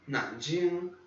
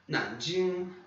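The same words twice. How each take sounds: No difference in how they are said.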